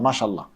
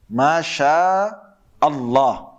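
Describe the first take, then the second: First: The glottal stop before Allah is dropped. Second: The glottal stop before Allah is pronounced. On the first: The speaker calls it wrong. "some people say mashallah, mashallah. It's actually wrong" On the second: The speaker calls it right. "The proper way to say what is is what? Masha Allah"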